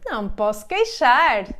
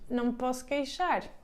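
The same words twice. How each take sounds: First: It is said in a content, modest tone. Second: It is said in a resigned, complaining tone. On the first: Things are going well, but this is played down. "apenas não querem demonstrar muito que tudo está muito bem" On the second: Things are not going well. "significa que as coisas não estão muito bem"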